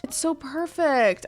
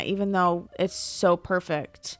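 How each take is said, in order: First: Higher pitch, swooning over it; gushing higher. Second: Said in the usual way. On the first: Real, not acted. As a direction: sigh it out like a fan in love.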